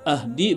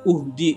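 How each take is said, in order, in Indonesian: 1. Kata ini diawali dengan vokal a. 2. Kata ini diawali dengan vokal u. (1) "bukan ahdi" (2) "bukan uhdi"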